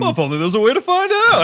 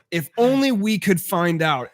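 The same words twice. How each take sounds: First: Dripping with sarcasm; sarcastic. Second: Slow, dry sarcastic line. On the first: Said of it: "intense amount of sarcasm behind it". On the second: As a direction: say it slowly, loaded with sarcasm. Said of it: "I was like". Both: Retold or imitated.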